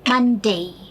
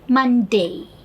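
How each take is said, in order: Both takes have the same delivery.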